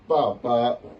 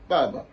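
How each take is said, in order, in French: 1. La deuxième syllabe porte un ton plein. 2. La deuxième syllabe est légère et sans ton. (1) "il n'est pas dit papa" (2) "Il a dit vraiment papa"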